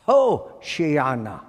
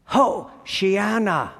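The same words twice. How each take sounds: First: Said in the usual way. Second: Hoshiana with the Ho punched high; slow Hoshiana, hit the Ho hard; Hoshiana, leaning on the opening Ho; emphatic Ho. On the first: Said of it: "the Hebrew phrase is". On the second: Shown as a demonstration. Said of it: "Ho is an emphatic prefix".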